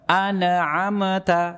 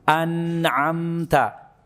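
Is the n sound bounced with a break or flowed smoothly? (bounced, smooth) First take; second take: bounced; smooth. First: The n is bounced, splitting the word apart. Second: The n flows briefly, then releases without a break. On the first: The speaker calls it wrong. "Kesalahan pengucapan pada nun ketika sukun dipantulkan" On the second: The speaker calls it right. "Dialirkan sedikit suaranya kemudian lepaskan"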